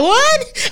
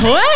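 First: A much higher squeaky "What?", fully incredulous; exaggerated shock. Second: A high, laughing "What?" in mock disbelief; surprised yelp, half laughing; mock shock. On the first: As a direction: shriek it in total disbelief. Second, bigger shocked reaction. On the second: Shocked reaction retold, laughing.

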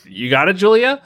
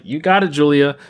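First: Imitated supporters now unsure, higher and rising; retold doubtful encouragement. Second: Imitated supporters cheering her on; lightly voiced "you got it" as a statement; retold encouragement. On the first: Fans reacting to her dating a rapper, doubtful questioning cheer. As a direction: turn the cheer into a high question. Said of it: "folks were like". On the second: Fans backing an actress through drama, mock encouragement. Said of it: "people were like".

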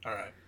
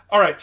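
First: Said in the usual way. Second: A louder, higher call to move on; host rallying into the next segment; louder, brisk reset. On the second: Real, not acted. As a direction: punch it up to start the next topic. Wrapping up, moving to next topic.

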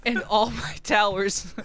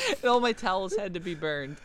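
First: Laughing through the words; giggling, losing composure. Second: Said in the usual way. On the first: Real, not acted. Reading while laughing.

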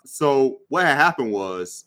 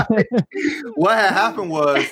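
First: Said in the usual way. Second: Laughing through a mock excuse. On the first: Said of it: "whenever you hear what had happened was". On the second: Host jokingly acts out an excuse-maker's catchphrase, laughing and higher. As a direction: play the guilty storyteller with a laugh. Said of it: "about to hear some excuses".

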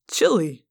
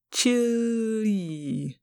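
First: Said in the usual way. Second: CHILI stretched very long and soft; drawn-out word. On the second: Acted. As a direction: draw out the vowels of "chili", gliding slowly down. Alien savours the word aloud.

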